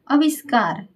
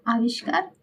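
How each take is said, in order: First: आविष्कार begun with short "a" and a plain "s", as "aviskaar"; wrong short A. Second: आविष्कार with long "aa" and a "sh" sound; correct long AA. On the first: Teacher reading out the faulty word, आविष्कार with short first vowel. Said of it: "आविष्कार जो है अशुद्ध शब्द है". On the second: Teacher giving the correct word, आविष्कार with long first vowel. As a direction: say "aa-vish-kaar" for आविष्कार, softly. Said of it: "आविष्कार शुद्ध शब्द है". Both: Shown as a demonstration.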